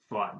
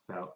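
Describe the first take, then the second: First: The vowel sounds like the one in 'thought'. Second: The vowel sounds like the one in 'out'. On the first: The speaker calls it right. "I would just guess fought" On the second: The speaker calls it wrong. "people say it wrong a lot"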